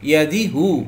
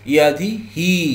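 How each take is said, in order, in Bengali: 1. শেষ অংশটি 'u' স্বরধ্বনি দিয়ে বলা হয়। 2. শেষ অংশটি 'i' স্বরধ্বনি দিয়ে বলা হয়। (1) "হু হবে না" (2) "হি হবে"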